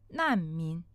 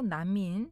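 First: It is said with a falling Chinese tone. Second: It is said flat, without Chinese tones. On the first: "중국어로 난민, 난민. 성조 내려야 돼요" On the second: "한국어로 난민"

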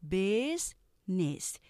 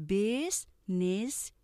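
The two takes are said the same way.

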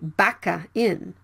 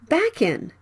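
First: An extra vowel is added after the k. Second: The k links straight into the next vowel. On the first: The speaker calls it wrong. "Don't say baka in" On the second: The speaker calls it right. "Consonant and vowel blended"

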